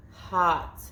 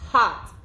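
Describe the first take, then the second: First: Said in the usual way. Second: Hot blended and said louder; Hot as one loud word. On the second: Shown as a demonstration. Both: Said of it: "we say the sounds".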